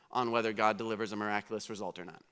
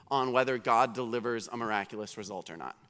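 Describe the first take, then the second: No difference in how they are said.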